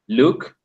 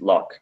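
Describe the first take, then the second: First: The vowel sounds like the one in book. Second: The vowel sounds like the one in cup. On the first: The speaker calls it wrong. "you said look" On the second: The speaker calls it right. "but the pronunciation is"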